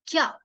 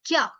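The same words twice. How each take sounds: First: क्या said as one quick syllable, kya, pitch lifted at the end; क्या clipped short, rising into the end; pronunciation demo. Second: Said in the usual way. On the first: Shown as a demonstration. Teacher models क्या for students, quick rising kya. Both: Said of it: "बोलने की भी practice करना ताकि आपको उसकी accent आए".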